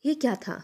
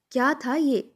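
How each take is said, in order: First: Higher-pitched disgusted demand; disgusted aunt. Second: Higher and louder indignant repeat; angrier repeat. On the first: Aunt tastes the halwa and scolds, disgusted. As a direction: spit the question out in distaste. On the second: Aunt repeats her complaint about the halwa, louder and angrier. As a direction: throw the question back harder. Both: A narrator's reading. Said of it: "برا سا منہ بنا کر کہنے لگیں".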